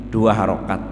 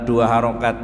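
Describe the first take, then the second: The two takes are said the same way.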